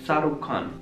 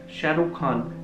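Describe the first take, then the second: First: The name begins with an s sound. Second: The name begins with an sh sound. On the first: "they speak Sarukh Khan" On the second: "if you ask them to speak Shah Rukh Khan"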